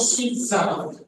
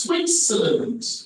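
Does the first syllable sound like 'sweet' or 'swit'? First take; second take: sweet; swit. First: The first syllable sounds like 'sweet'. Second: The first syllable sounds like 'swit'. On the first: The speaker calls it wrong. "not Switzerland" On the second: The speaker calls it right. "Phonetically, it is Switzerland"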